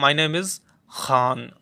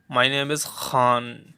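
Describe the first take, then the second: First: "खान" with a rough fricative kh; slow "My name is खान", friction on the kh; Arabic kh in Khan. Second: "खान" with a rough fricative kh; slow "My name is खान" with a fricative kh; Arabic kh in Khan. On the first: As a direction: say "खान" with a throaty scraping kh, slow. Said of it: "वो खुद कहता था कि मेरा नाम". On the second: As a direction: scrape the kh in "खान" from the back of the throat. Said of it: "ठीक है, इस तरीके से". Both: Shown as a demonstration.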